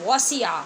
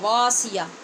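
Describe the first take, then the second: First: The first vowel is short. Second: The first vowel is long. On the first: The speaker calls it right. "हालाँकि ये वसिया है" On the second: The speaker calls it wrong. "बहुत सारे बच्चों ने वासिया पढ़ा है"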